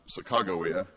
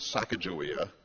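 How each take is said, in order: First: The name is said in the current way. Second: The name is said in the older way. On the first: This is how the name is said today. "the current pronunciation is now" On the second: This is how earlier generations knew the name. "Your parents and grandparents would have known that name as"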